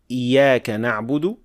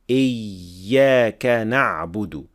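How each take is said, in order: First: The y sound is short, like a single y. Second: The y sound is doubled with unbroken airflow. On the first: The speaker calls it wrong. "too quickly or too lightly, like ... with one ya" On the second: The speaker calls it right. "pronounce the shadda somewhere in between"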